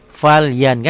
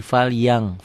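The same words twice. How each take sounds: First: Said in the usual way. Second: "yang" ending in ng instead of N; N read as ng. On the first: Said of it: "Kan ada N-nya kan". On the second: Shown as a demonstration. Teacher adds G when reading, "yang" ending in ng. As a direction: close "fal yang" on a back-of-mouth ng. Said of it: "Dibacanya tambah G".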